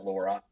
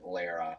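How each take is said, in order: First: The name is said to sound like 'Laura'. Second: The name is said to sound like 'Lara'. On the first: The speaker calls it wrong. "not Laura" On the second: The speaker calls it right. "pronounce it properly"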